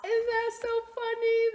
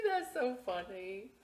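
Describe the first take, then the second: First: High, loud, gushing delight. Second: Said in the usual way. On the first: Real, not acted. Librarian gushing to the kids about her joke. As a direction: squeal it with glee.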